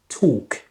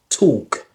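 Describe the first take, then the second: First: The L sound is silent in the word. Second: The same.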